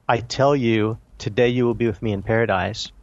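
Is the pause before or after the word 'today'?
before. The pause comes before the word today.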